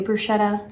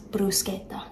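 First: Said in the usual way. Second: Bruschetta said the Italian way, hard k sound: bru-SKET-ta; Italian pronunciation. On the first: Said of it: "I do also say bruschetta". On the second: Shown as a demonstration. Correcting viewers on the Italian word, saying bruschetta as bru-SKET-ta. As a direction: say bruschetta as a full-blooded Italian would, with a crisp sk. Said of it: "the technical pronunciation is bruschetta".

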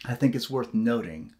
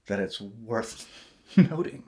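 First: Said in the usual way. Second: Slow repeat of "worth noting", laugh breaking in. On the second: Shown as a demonstration. Joking about redundancy, slow and laughing. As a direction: repeat it slowly as a joke, laughing.

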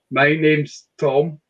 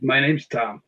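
First: "Tom" with a rounded o; drawn-out "Tom"; standard Tom. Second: "Tam" with an open a vowel; "Tom" turned into Scots "Tam". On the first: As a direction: say "Tom" slowly with an o vowel. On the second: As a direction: say "Tam" to rhyme with ham. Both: Retold or imitated. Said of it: "Or he said, "Tam".

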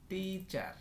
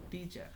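First: teacher split as tee, then char; higher, both syllables of teacher held apart. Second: Said in the usual way. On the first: Shown as a demonstration. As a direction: sound out teacher in two parts. Word broken, then said whole.

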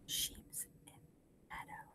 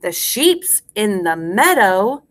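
First: Barely audible whisper; whispered echo. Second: Slow, full-voiced nursery rhyme line; slow rhyme recitation. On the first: Teacher leaves room for class to repeat, whispering faintly. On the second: Teacher gives class a line to repeat, slow and clear. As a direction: space it out for repeating. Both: Shown as a demonstration.

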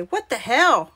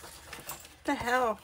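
First: Louder, lightly voiced little kid; little kid quote. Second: Soft, slow mutter to herself; muttered puzzlement. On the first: Crafter quoting a little kid, lightly imitated exclamation. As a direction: mimic a small child's exclamation, lightly. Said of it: "that little kid say". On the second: Real, not acted. Crafter puzzled by an odd measurement, muttered puzzlement. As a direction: let it out quietly, drawn out.

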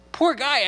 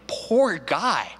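First: Higher mock pity. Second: Said in the usual way. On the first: Shown as a demonstration. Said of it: "mock pity repeated". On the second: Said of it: "sympathy for Abraham".

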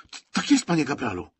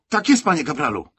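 First: Stumbling on the first word, much higher; a flustered recruit catching himself; nervous stammer. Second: Higher, louder snappy parade-ground reply; dutiful shout. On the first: Acted. Recruit stammers before corporal. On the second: A narrator's reading. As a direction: bark it out like a keen recruit. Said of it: "wykrzyknął służbiście Kalina".

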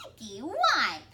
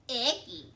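First: Put-on loud childish icky wipe; little girl voice. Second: Put-on childish disgusted icky; small kid saying ew; little girl voice.

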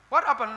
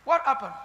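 The two takes are said the same way.

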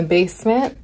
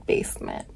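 First: Said in the usual way. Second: Much softer, nearly voiceless repeat; quiet, creepy little echo; hushed echo. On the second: Real, not acted. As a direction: drop it to a near whisper. Echoes the creepy place in a hush.

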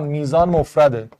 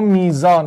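First: میزان stressed, then a falling, settled tune; firm verdict. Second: میزان asked with a rising question tune; questioning rise. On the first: Teacher telling students the answer, firm falling statement. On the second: Teacher weighing option میزان for students, rising question. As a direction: test the option میزان with a lifted, questioning end. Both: Shown as a demonstration.

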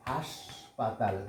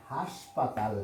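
First: হাসপাতাল stretched out slowly and softly, syllable by syllable; slow spelling demo. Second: Said in the usual way. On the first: Shown as a demonstration. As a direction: drag out হাসপাতাল gently so each sound is clear. (হাসপাতাল ধীরে ধীরে টেনে উচ্চারণ) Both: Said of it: "হাসপাতাল মানে hospital".

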